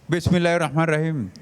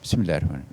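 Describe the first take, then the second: First: It is shouted loudly. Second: It is said at normal loudness.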